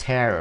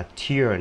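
First: "tear" with an open e, rhyming with "air"; the ripping "tear", TAIR; tear read as TAIR. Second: "tear" with an ee sound, rhyming with "here"; the crying-drop "tear", TEER; tear read as TEER. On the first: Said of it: "mà đọc là". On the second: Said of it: "bây giờ nó không đọc là tear nữa". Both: Shown as a demonstration.

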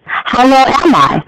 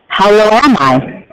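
First: Higher question take. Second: Said in the usual way. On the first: Shown as a demonstration. Teacher repeating the line to show a question's rise. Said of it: "your voice raises higher in pitch when you have a question". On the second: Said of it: "I will make two inflections in my voice".

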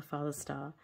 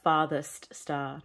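First: "father's" said softly as in the song; soft, dropped "father's star", not "farthest". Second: "farthest" said slowly with a clear rth and t; "farthest star", stretched out, each sound distinct. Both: Shown as a demonstration. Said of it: "not the father's star".

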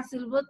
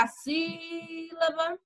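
First: Said in the usual way. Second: "sílaba" with the first syllable "sí" stretched long and higher; stressed syllable. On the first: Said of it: "se eu quero saber qual é a sílaba tônica". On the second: Shown as a demonstration. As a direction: draw out the "sí" in "sílaba" to show the stress. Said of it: "só era eu dizer".

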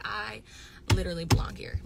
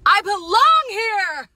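First: Said in the usual way. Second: Loud, high, drawn-out mock yell; hammed-up proclamation. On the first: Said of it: "But for real". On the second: Retelling seeing herself on camera, hammed-up proclamation. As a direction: belt it out slowly, pitched way up. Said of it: "and I was like".

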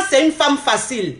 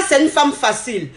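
Both takes have the same delivery.

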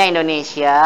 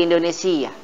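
First: Said in the usual way. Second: "Indonesia" pronounced Indunisiyyah, with a long doubled y; stretched -siyyah ending on "Indonesia"; Arabic language-name form. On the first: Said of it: "Negaranya Indonesia". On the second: Shown as a demonstration. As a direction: say "Indonesia" the Arabic way, as in-du-ni-SIY-yah. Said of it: "kalau bahasa nanti jadi".

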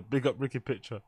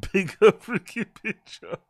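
First: Said in the usual way. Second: Slow, giggling through the name; amused slow repeat; laughing. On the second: Shown as a demonstration. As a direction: laugh out Big up Ricky Pitcher.

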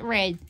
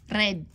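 First: Said in the usual way. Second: Red with a Filipino accent and a tapped r. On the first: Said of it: "Not red". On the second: Shown as a demonstration. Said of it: "You gotta say it in Filipino accent".

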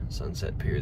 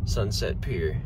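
First: Whispered name, no voice. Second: Said in the usual way. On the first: Shown as a demonstration. Names the restaurant twice.

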